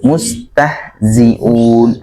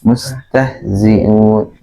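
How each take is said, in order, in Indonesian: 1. Mulut dan bibir terbuka lebar dan bergerak dengan jelas. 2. Mulut dan bibir hampir tidak bergerak, terdengar tertahan. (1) "nanti jadinya akan lebih maksimal ya" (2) "kalau mulutnya istilahnya itu malas bergerak, bibirnya juga malas bergerak"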